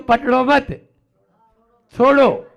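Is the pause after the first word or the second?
second. The pause comes after 'पकड़ो मत'.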